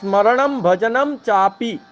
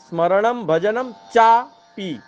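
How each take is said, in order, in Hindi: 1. अंतिम शब्द बिना रुके एक ही शब्द की तरह बोला जाता है। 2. अंतिम शब्द एक विराम के साथ टूटकर बोला जाता है। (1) "चापी एक शब्द है" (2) "तो लोग क्या बोलते हैं"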